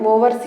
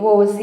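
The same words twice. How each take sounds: First: An R sound is pronounced in the middle. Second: No R sound is pronounced in the middle. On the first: The speaker calls it wrong. "మనం జనరల్గా ఏమి వింటామంటే ఓవర్సీ అని అంటూ ఉంటారు" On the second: The speaker calls it right. "Correction చేసుకోండి, ఓవర్సీ అని పలకాలి"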